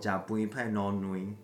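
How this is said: It is said in a Yilan accent.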